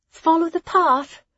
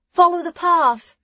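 First: High, loud call after departing friends; calling after them. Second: High, louder repeated call; calling after them. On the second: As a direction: call the reminder again, louder. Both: Acted. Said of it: "Hessa called after them".

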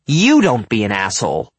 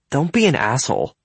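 First: Louder, hard stress on "You"; angry retort. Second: Raised pitch, mildly irritated; annoyed rebuke. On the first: Jared retorting before he storms off, angry. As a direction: throw it back, punching "You". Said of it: "he says and storms off". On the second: Evan objecting to Jared's mockery, annoyed. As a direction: tell off a friend. Friends quarrel before school. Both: A narrator's reading.

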